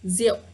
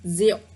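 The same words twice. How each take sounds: First: The word is said in a simpler everyday form. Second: The same.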